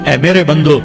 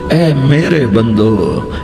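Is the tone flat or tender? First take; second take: flat; tender. First: It is said in a plain, neutral tone. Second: It is said in a warm, loving tone. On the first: The speaker calls it wrong. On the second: The speaker calls it right.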